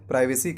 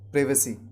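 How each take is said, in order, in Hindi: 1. पहला अक्षर 'pry' जैसा सुनाई देता है। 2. पहला अक्षर 'priv' जैसा सुनाई देता है। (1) "प्राइवेसी कहना गलत है" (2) "ब्रिटिश इंग्लिश में इसका सही उच्चारण होगा प्रिवेसी"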